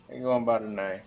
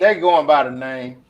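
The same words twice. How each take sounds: First: Repeated much softer; quiet repeat. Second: Said in the usual way. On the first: Real, not acted. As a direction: echo it under your breath.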